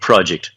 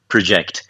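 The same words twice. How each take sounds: First: The stress is on the first syllable. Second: The stress is on the second syllable. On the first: It is used as a noun. "o projeto do project" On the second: It is used as a verb. "E projetar"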